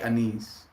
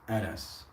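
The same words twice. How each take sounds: First: The stress is on the second syllable. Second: The stress is on the first syllable. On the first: This is the speaker's own preferred way. "I like anise, but that's just me" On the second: This is how it is said in England. "in England, I think they pronounce it more like anise. with the accent on the first syllable"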